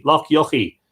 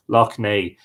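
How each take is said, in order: First: Loch Yochie read out as written, yochie; misreading. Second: Loch Nay said lock NAY, lower; corrected name. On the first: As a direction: say Loch Yochie as spelt, lock YOCK-ee. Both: Shown as a demonstration.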